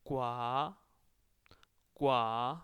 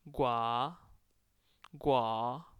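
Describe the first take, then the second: Both takes have the same delivery.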